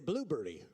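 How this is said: It is said the British way. "Brits say blueberry"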